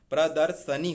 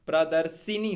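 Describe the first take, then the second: First: प्रदर्शनी as pra-dar-SA-nee; correct a vowel. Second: प्रदर्शिनी as pra-dar-SI-nee; wrong i vowel. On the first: Teacher correcting students, प्रदर्शनी with sa. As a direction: lean on sa in प्रदर्शनी. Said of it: "प्रदर्शनी होता है". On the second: Teacher reading the mistake aloud, प्रदर्शिनी with clear si. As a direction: lean on si in प्रदर्शिनी. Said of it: "तो वैसे नहीं होता". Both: Shown as a demonstration.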